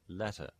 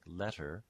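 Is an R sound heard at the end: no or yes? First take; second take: no; yes. First: The word ends with a plain schwa, no R. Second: The word ends with an R-colored vowel.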